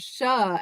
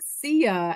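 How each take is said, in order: First: The ending is said as one syllable, 'shah'. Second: The ending is said as two syllables, 'see-ah'. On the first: It follows the American way of reading the letters. "yours is a more American pronunciation" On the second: It follows the Latin way of reading the letters. "I was saying that it would be like Sia at the end"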